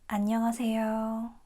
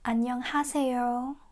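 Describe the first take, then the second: First: The h in the third syllable is dropped. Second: The h in the third syllable is clearly pronounced. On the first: The speaker calls it right. "We say ... So it's more like ah, ah, not ha" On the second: The speaker calls it wrong. "we don't say"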